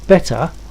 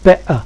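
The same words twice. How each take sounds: First: It is said in a standard English accent. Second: It is said in a Cockney London accent. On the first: "instead of saying better" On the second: "people from London, ... we say better"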